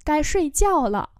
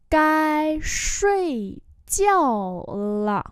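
First: Said in the usual way. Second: Long, held syllables. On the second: Shown as a demonstration. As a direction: stretch out every tone. Teacher repeats phrase slowly.

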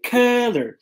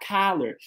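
First: "color" with stressed "kuh", louder; color with carrot. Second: "color" said as collar, open "kah". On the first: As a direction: hit the first vowel of "color" as in bus. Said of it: "cor é com carrot". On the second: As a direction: give "color" an open a in the first syllable. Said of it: "colarinho é com a". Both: Shown as a demonstration.

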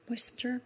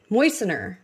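First: "Moistener" said softly as "moysen-jer"; softer, with a j slipped into "Moistener"; mispronounced with a j. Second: "Moistener" as "moy-sen-er", no j sound; louder "Moistener", ending in a plain "ner"; corrected pronunciation. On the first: Vlogger doubting her own word, mispronouncing "Moistener" with a j. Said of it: "I think I'm saying that wrong". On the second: Vlogger correcting herself, saying "Moistener" without the j. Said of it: "Maybe that's it". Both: Real, not acted.

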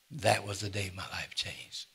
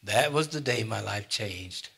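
First: Said in the usual way. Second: Slow emphatic. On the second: Real, not acted. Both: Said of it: "repeated line".

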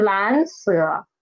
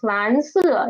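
First: 蓝色 with 色 falling from too low; wrong low fall. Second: 蓝色 with 色 dropping from the highest pitch; falling from high. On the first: Teacher shows students the mistake in 蓝色, 色 falling from low. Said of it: "it's not falling down from here". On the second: Teacher corrects students' 蓝色, 色 falling from high. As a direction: rise on 蓝, fall sharply from high on 色. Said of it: "it's falling down from high". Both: Shown as a demonstration.

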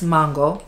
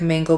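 First: "mango" with her own non-American vowel, not the flat American a; her usual mango. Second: "mango" with an American flat a, MAN-go; American accent on mango. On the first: Shown as a demonstration. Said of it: "It's mango. That's how I say it typically". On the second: Real, not acted. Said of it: "saying mango like I'm fully American".

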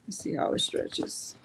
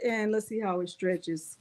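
First: Soft breathy whisper, no voice. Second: Said in the usual way. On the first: Shown as a demonstration. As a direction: hush it like a secret before the test. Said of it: "repeat as whisper". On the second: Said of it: "repeats it whispered".

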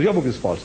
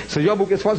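First: Mere disputation. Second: High retold challenge; mere disputation. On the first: Retold or imitated. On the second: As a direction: toss out the accusation on a raised pitch. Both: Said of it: "That's mere disputation".

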